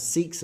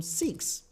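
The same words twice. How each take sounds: First: "Sikhs" as North Americans pronounce it; North American pronunciation. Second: "Sikhs" as said in the UK, softer; UK pronunciation. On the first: Host showing viewers the US word, North American pronunciation of "Sikhs". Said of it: "North Americans pronounce Sikhs as". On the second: Host showing viewers the UK word, British pronunciation of "Sikhs". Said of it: "Here in the U K, we call them". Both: Shown as a demonstration.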